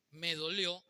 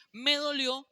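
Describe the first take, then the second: First: Said in the usual way. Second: "Me dolió" shouted high and loud; "Me dolió" thrown out as a loud, high cry. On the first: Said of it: "sin gritar". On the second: Shown as a demonstration. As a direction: yell "Me dolió" like a hurt man losing it. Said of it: "Yo no sé decir".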